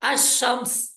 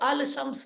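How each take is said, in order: First: The 'l' is silent and the 'sh' is doubled. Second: The 'l' is pronounced separately before 'shams'. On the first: The speaker calls it right. "ये बनेगा अशम्स" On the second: The speaker calls it wrong. "इसको अल शम्स नहीं पढ़ेंगे"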